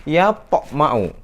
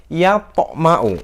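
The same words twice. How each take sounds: Both takes have the same delivery.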